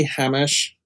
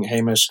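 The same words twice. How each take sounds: First: Hamish with a short A, "HAM-ish"; first syllable of Hamish like the word "ham"; common mispronunciation of Hamish. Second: Hamish with a long A, "HAY-mish"; first syllable of Hamish rhymes with "day"; correct pronunciation of Hamish. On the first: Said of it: "How the fuck do they pronounce it?". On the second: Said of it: "you've been pronouncing Hamish correctly". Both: Shown as a demonstration.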